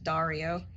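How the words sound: The name is said with an American accent. "if you're pronouncing it with an American accent, it's just Dario"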